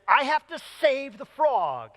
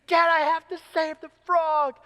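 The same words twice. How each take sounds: First: Higher, drawn-out imitation of a pleading kid; pleading like a determined little girl; urgent child's plea. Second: High-pitched, whining imitation of a child; hammed-up desperate little girl begging; desperate child's plea. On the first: Daughter begging dad as a car comes, urgent. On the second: Daughter begging dad a second time, desperate. Retold child pleads again, escalating.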